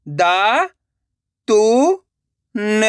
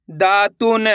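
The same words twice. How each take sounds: First: दा, तु, न as isolated sounds; syllable by syllable. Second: Said in the usual way. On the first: Shown as a demonstration. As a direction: sound out दा, तु, न separately. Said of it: "एक एक अक्षर का उच्चारण करके". (दा, तु, न एक-एक अक्षर रुक-रुक कर) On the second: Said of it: "direct मात्रा का उच्चारण करके पढ़ेंगे".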